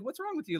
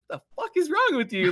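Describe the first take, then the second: First: High but soft concerned question; polite mom. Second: High, loud mock scolding; exaggerated mom outburst. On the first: Retold or imitated. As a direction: gently voice a nice mom asking. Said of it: "polite woman". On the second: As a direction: blow up like a hammed-up shocked mom. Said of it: "she didn't say it like that".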